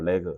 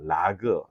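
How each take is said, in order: First: It is said as one word, vowel like 'e'. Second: It is said as one word, vowel like 'a'. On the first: "저는 레그라고 하고 싶어요" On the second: "세 가지 발음으로 쓰이는데"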